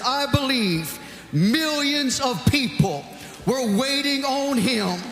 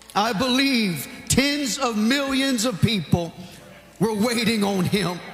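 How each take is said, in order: First: It is said imitating the deceased preacher's manner. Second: It is said in the speaker's own manner.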